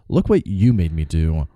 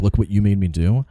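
First: It sounds blaming, putting fault on the victim. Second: It sounds helpless, as if he lacked control.

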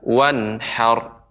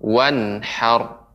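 The two takes are said the same way.

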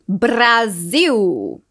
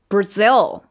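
First: It is said with Portuguese sounds. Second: It is said with an English R. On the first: "Alguns exemplos que são parecidos em português, mas para a gente notar essa diferença" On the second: "o som da letra R é R"

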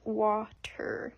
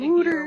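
First: The first vowel sounds like 'ah'. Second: The first vowel sounds like 'oo'. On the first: "Most Americans refer to the stuff that comes out of the tap as water" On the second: "if you were raised in Philadelphia, your pronunciation probably sounds more like wooter"

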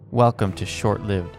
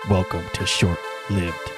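First: It is said in a plain, normal speaking voice. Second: It is said in a dramatic grindhouse trailer voice. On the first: "Forget that. I'll just do it" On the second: "Maybe I'll make it grindhouse"

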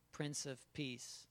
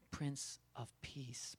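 First: It is said fast. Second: It is said slowly.

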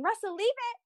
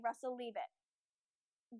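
First: The voice sounds light and cheerful. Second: The voice sounds low and firm. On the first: The tone does not show that the behavior is unwanted. The speaker calls it wrong. "instead of saying, "Russell, leave it," like that" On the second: The tone shows that the behavior is unwanted. The speaker calls it right. "That's my tone is reflecting what I want"

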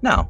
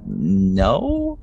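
First: The word is said in a relaxed, casual way. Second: The word is said hesitantly and uncertainly. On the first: The speaker is simply declining without fuss. "just very casually" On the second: The speaker is not confident in the refusal. "just very like unsure of yourself"

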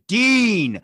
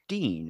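First: The name is said loudly, with lively energy. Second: The name is said flatly, with little energy. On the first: The greeting sounds happy and welcoming. The speaker calls it right. "Let's do it all over again and say Dean" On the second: The greeting sounds uninterested. The speaker calls it wrong. "they just say a name and then they're like, oh, it's Dean. It's like, stop"

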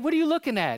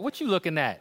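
First: It is said in a friendly, curious way. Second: It is said with a hostile, confrontational attitude. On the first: The speaker simply wants to know what is being looked at. "But like we've asked people" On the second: The speaker is challenging someone for staring. "you can say it with some attitude"

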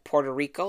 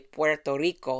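First: It is said with an American English accent. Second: It is said with a Spanish accent.

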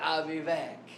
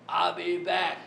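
First: It is said in his normal voice. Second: It is said in a put-on movie voice.

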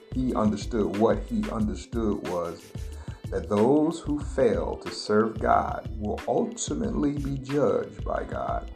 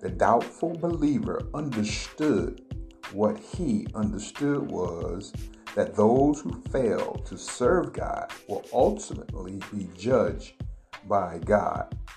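First: It is said at a normal pace. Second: It is said slowly and deliberately.

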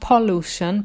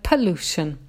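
First: The first vowel is full and unreduced. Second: The first vowel is weak and reduced. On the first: The speaker calls it wrong. "not pollution" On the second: The speaker calls it right. "that makes the first sound weak"

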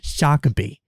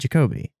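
First: The first syllable sounds like French Jacques. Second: The first syllable does not sound like Jacques. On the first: This is how the name was wrongly assumed. The speaker calls it wrong. "I did not say Jacobi" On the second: This is how the name was actually given. The speaker calls it right. "I said Jacobi"

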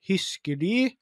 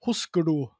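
First: The name is said with Norwegian vowels. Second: The name is said with American English vowels. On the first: "på norsk ville jeg jo sagt husker de" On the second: "i USA så uttaler man ikke noen ting sånn som det skal, så det var jo husker du"

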